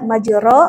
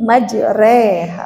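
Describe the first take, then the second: First: The vowel after r is a clear open a. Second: The vowel after r leans from a toward i. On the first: The speaker calls it wrong. "jangan lagi ada yang membaca majuro" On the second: The speaker calls it right. "fathah condong ke kasroh eh, dua pertiganya"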